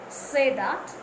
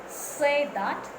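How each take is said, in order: Both takes have the same delivery.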